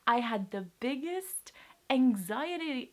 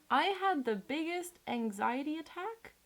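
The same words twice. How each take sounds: First: Voice breaking. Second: Said in the usual way. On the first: Real, not acted. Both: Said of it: "I can't speak".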